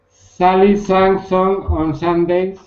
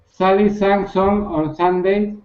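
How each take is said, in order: First: It is said slowly. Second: It is said fast.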